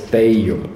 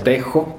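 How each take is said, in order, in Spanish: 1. La J suena como una y inglesa. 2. La J es un sonido gutural al estilo español. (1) "es la pronunciación correcta, es TEIYO" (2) "si ustedes lo leen en español sería TEJO"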